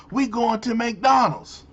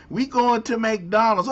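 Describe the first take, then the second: First: Said in the usual way. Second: Slightly higher, lilting mock-accented "We going to McDonald's"; mock accent take. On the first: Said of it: "yeah, yeah".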